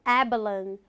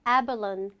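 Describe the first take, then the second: The two takes are said the same way.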